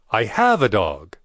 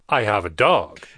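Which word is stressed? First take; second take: have; dog. First: The word 'have' is stressed. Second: The word 'dog' is stressed.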